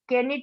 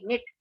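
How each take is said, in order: First: The k sound is pronounced at the start. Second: The k sound is silent at the start. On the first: The speaker calls it wrong. "केनिट नहीं बोलते इसको" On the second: The speaker calls it right. "निट बोलेंगे इसको"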